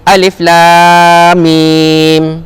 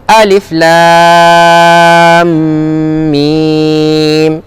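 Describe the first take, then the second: First: The m between lam and mim is not held nasally. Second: The m between lam and mim is held nasally. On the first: The speaker calls it wrong. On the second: The speaker calls it right. "enam harakat campur dengung dua harakat"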